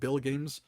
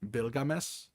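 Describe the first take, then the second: First: It sounds like the English words bill and games. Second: It is said as one foreign-sounding name. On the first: The speaker calls it wrong. "I pronounce it Bill Games because it looks like Bill Games" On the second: The speaker calls it right. "the correct pr- pronunciation for it would be Bilgames"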